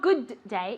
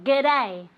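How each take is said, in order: First: The two words are said separately. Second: The two words are run together. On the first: The speaker calls it wrong. "not good day" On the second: The speaker calls it right. "It's all together, as if it were a good day all together"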